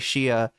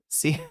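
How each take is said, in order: First: The name begins with an sh sound. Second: The name begins with an s sound. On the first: The speaker calls it wrong. "I was like bending myself in pretzels all these years to say Shia" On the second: The speaker calls it right. "even though I wanted to say Sia"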